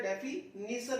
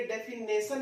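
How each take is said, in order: First: डेफिनेशन with "nee" in the third syllable; correct pronunciation. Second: डेफिनेशन with a long "nay" in the third syllable; wrong pronunciation. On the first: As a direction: say डेफिनेशन as "defi-nee-sun", with an ee vowel. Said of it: "पहले भी बता चुका हूं". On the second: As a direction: mispronounce डेफिनेशन as "defi-nay-sun", drawing out the ending. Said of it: "ये डेफिनेशन नहीं होता है". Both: Shown as a demonstration.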